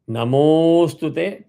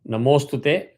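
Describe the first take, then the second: First: The vowel is held two extra beats. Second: The vowel is held with no extra length. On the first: "two avagraha" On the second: "no avagraha"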